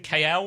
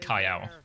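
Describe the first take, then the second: First: The name's vowel sounds like 'ay', as in 'sail'. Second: The name's vowel sounds like 'eye', as in 'mile'.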